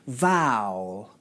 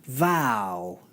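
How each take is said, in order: First: The word is said as one syllable. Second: The same.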